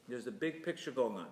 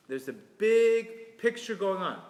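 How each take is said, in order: First: Said in the usual way. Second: "big" drawn out, louder and higher, slow; stressed big. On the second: Shown as a demonstration. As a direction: lean hard on "big" and slow down.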